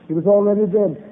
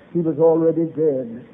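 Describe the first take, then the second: First: Preacher's rising emphasis on "already"; emphatic repeat. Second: Said in the usual way. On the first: Shown as a demonstration. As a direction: drive the point home on "already". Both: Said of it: "repeated for emphasis".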